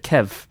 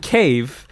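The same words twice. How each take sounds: First: "kev" with a short, clipped e instead of "cave"; Irish-accented "kev". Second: Said in the usual way. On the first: Shown as a demonstration. Showing how he said cave, "kev" with a short Irish e. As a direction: say "kev" with the vowel of "bed". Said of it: "said it with a ke, like a kev". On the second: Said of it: "but he said it with".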